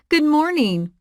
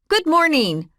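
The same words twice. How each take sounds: First: It sounds warm and friendly. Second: It sounds hard and sharp.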